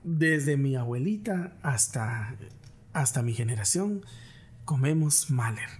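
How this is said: The delivery sounds warm and tender. It evokes a family bond across generations. The speaker calls it right. "vas a ser más cálido"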